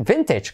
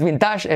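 First: Vintage as VEN-tech, stress up front; correct English pronunciation. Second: Vintage as bin-TASH, stress at the end; wrong pronunciation. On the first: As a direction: land the first syllable of vintage, end in ch. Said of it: "es vintage". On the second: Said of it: "no es vintage". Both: Shown as a demonstration.

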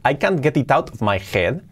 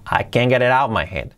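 First: Every sound of "I can't get it out of my head" said separately, t fully released; careful textbook reading, no linking; spelled-out pronunciation. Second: Connected native-speed speech; linked natural pronunciation. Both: Shown as a demonstration. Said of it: "Cambia mucho decir".

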